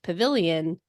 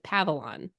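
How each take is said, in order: First: The word is said with the i sound. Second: The word is said without the i sound. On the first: The speaker calls it right. "a word like pavilion" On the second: The speaker calls it wrong. "he missed the I's. We pronounce it Pavilon"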